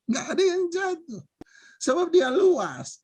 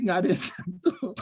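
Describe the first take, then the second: First: Said again through laughter, higher; amused echo, pitched up; laughing repeat. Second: Said in the usual way. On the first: Real, not acted.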